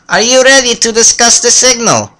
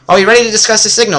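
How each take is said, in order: First: It is said in a put-on character voice. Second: It is said in his normal voice.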